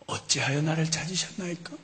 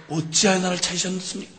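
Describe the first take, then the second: First: Quiet, measured reply; Jesus calmly answering his mother; calm young Jesus. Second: Said in the usual way. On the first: Acted. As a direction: answer softly and evenly.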